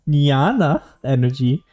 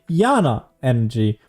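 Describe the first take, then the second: First: The first word begins with a 'ny' sound. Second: The first word begins with a plain 'y' sound. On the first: "That's how you pronounce it" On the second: "I would say Yana energy"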